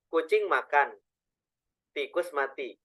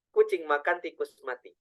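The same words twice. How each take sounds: First: There is a pause after makan. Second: There is no pause inside the phrase. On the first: A cat eats and, separately, a rat dies. "kalau jedanya dimakan" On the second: A cat eats a rat that is already dead. "Kalau tidak ada jeda sama sekali"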